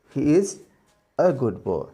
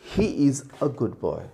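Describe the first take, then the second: First: The word a is a short, weak uh. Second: The word a is a short, weak uh.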